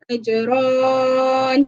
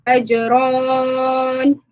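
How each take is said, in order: Both takes have the same delivery.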